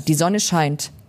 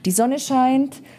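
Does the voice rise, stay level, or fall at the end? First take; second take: fall; level. First: The voice falls at the end. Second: The voice stays level at the end.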